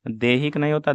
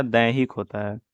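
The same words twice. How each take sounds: First: देहिक said with short e, pitched up as the error; देहिक with a questioning lift; wrong form, raised. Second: दैहिक said as the right answer; correct form. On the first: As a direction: flag देहिक as wrong, higher. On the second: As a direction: land firmly on दैहिक. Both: Shown as a demonstration.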